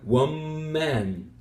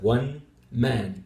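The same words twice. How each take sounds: First: The n in 'one' sounds like an m. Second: The n in 'one' is a clear n. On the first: "you get something like one man" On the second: "instead of one man, because that would be very difficult to do"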